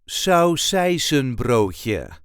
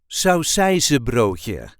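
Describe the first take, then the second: First: The N in the middle is clearly pronounced. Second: The N in the middle is left out. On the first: "you will hear me pronouncing the N in the middle of the word" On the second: "normally we won't do that, so it will sound more like this"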